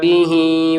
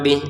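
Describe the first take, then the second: First: The word ends with a long vowel. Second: The word ends cut off, without a vowel. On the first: The reading continues to the next words. "maka dibaca panjang dua harokat" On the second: The reading stops here. "Bih di sini kita baca sukun karena berhenti ya"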